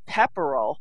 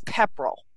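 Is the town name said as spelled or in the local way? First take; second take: as spelled; local way. First: The name is pronounced the way it is spelled. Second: The name is pronounced in the local way. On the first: The speaker calls it wrong. "it's not Pepperell" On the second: The speaker calls it right. "it's Pepperell"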